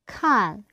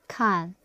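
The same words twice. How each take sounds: First: The syllable is said with a falling tone. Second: The syllable is said with a light neutral tone. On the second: "is close fist, neutral tone"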